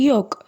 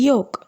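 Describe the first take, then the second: Both takes have the same delivery.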